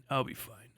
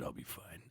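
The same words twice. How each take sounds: First: Said in the usual way. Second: Whispered I'll be fine; unvoiced whisper of I'll be fine; quiet. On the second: Shown as a demonstration. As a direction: breathe it out almost silent. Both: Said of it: "Don't worry about me".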